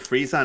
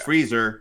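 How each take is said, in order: First: The name ends in a short 'zuh' sound. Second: The name sounds like the word freezer. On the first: It is the form English listeners know. "I'm saying here Frieza now because people will understand it" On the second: It sounds like the kitchen appliance. "if I go freezer, ... like the freezer"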